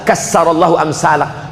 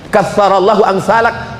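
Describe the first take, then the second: First: The consonant is pronounced as an 's' sound. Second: The consonant is pronounced as a 'th' sound. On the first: May God destroy people like you. The speaker calls it wrong. "Dirobah jadi sa" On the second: May God multiply people like you. The speaker calls it right. "yang semestinya kassarallahu amsalak"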